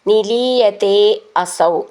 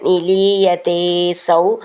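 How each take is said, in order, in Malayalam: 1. രണ്ട് വാക്കുകളും വേർതിരിച്ചാണ് പറഞ്ഞിരിക്കുന്നത്, ചേർക്കാതെ. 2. രണ്ട് വാക്കുകളും ചേർന്ന് ഒരു രൂപമായി പറഞ്ഞിരിക്കുന്നു.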